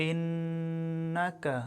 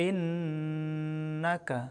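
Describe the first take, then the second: No difference in how they are said.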